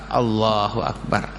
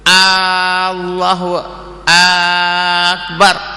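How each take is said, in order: First: The vowels in Akbar are kept short. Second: A vowel in Akbar is drawn out long. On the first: The speaker calls it right. "akbar dengan ra berbaris mati" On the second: The speaker calls it wrong. "memanjangkan sebut ta'lif ... pada akbar"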